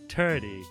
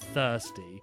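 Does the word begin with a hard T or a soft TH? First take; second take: hard T; soft TH. First: It begins with a hard T sound. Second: It begins with a soft TH sound. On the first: "the Irish say tree and turdy and thirsty, like on a hard T" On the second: "a soft and thirsty"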